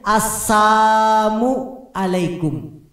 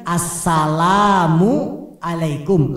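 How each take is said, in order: First: The L sound in the first word is left out. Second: The L sound in the first word is clearly pronounced. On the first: Destruction be upon you. The speaker calls it wrong. "lamnya dibuang, jadinya" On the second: Peace be upon you. The speaker calls it right. "Harusnya kan"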